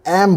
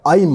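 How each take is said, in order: First: The syllable has a close 'e' vowel. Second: The syllable has an open 'ai' vowel. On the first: The speaker calls it wrong. "बहुत सारे लोग एम बोलते हैं, एम एम नहीं होता है" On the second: The speaker calls it right. "ऐम होता है।"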